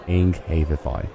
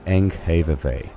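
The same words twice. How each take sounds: First: The name is pronounced the Danish way. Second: The name is pronounced the English way. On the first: The speaker calls it right. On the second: The speaker calls it wrong.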